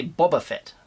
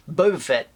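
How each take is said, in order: First: Boba with a short ah; other Boba. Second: Boba with a long oh; his Boba. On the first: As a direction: say Boba as BAH-ba. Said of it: "I don't say Boba Fett". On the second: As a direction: say Boba as BOH-ba. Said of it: "I also say". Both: Shown as a demonstration.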